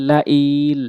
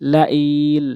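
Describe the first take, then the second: No difference in how they are said.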